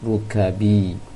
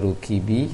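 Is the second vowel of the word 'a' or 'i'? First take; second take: a; i. First: The second vowel is an a sound. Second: The second vowel is an i sound. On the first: The speaker calls it right. "seharusnya rukabi" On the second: The speaker calls it wrong. "Tadi baca rukibi"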